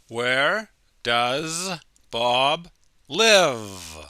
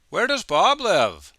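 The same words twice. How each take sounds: First: The word 'does' is said at normal speed. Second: The word 'does' is said very quickly.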